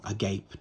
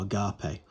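First: Agape rhymed with English "gape". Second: Agape in three syllables, ending "pay"; agape as "a-GAH-pay". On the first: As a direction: say agape with "gape" as one syllable. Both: Shown as a demonstration. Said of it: "depending on how you pronounce it".

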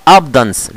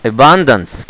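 First: ABUNDANCE wrongly squashed to AB-dans; swallowed syllable. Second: ABUNDANCE as i-BAN-dans, stress on the middle; full "abundance" with no syllable dropped; correct pronunciation. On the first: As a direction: say "abundance" with the middle eaten. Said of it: "أنت كلت حروف كده". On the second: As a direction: say "abundance" in three clear syllables. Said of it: "يبقى نطق صح بقى". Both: Shown as a demonstration.

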